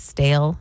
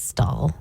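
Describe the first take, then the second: First: The vowel is an 'ay' sound. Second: The vowel is an 'aw' sound. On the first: "Instead of saying stale" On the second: "she says stall"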